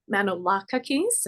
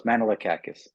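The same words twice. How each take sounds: First: Manolakakis said as man-oh-LAH-kuh-keez, stress on LAH; name attempt. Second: Manolakakis said as man-uh-luh-KAK-us, stress on KAK; correct Greek pronunciation. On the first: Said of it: "if I got your last name right". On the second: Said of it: "It's close". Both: Shown as a demonstration.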